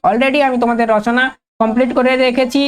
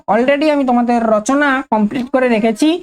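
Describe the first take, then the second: No difference in how they are said.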